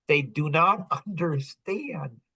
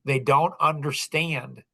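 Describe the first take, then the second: First: "do not" split apart and stressed, slow. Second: Said in the usual way. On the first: Shown as a demonstration. Insisting to Tom, stress on "do not". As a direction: lean on "do" and "not" separately.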